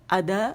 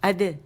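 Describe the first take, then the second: First: The vowel is opened wide, nearly full. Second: The vowel is short and only half open. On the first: The speaker calls it wrong. "हम ऐसे नहीं करेंगे अद" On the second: The speaker calls it right. "Half जबर इसकी आवाज होगी"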